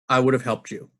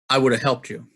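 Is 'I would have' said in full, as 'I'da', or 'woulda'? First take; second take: woulda; woulda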